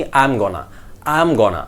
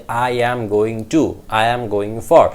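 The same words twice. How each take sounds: First: "going to" run together as "gonna"; connected speech. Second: "I am going to" slow, every word separate. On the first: Teacher shows what we hear from natives, connected. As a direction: link "I am gonna" into "am gonna". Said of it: "এই কারণেই আমরা শুনি". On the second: Teacher shows how natives don't say it, slow and separate. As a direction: give "I am going" in full, slowly. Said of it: "তারা এইভাবে বলে না". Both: Shown as a demonstration.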